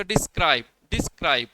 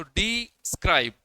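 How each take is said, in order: First: describe as one word, weight on scribe; stress on second syllable. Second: describe slowly, डि held apart from scribe; divided into syllables. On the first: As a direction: join describe up and lean on its long second vowel. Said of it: "उसके ऊपर ज़्यादा stress दिया गया बोलने का". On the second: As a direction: split describe after डि, drawing it out. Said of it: "उसको हम इस तरह से करते हैं". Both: Shown as a demonstration.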